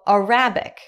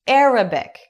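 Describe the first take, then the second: First: The stress is on the second syllable. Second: The stress is on the first syllable. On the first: It can sound like 'a rabbit'. The speaker calls it wrong. "ele falou Arabic" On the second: It names the Arabic language. The speaker calls it right. "a pronúncia em inglês para dizer árabe é Arabic"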